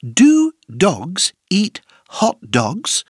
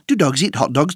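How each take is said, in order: First: The sentence is said at a moderate pace. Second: The sentence is said at a very fast pace.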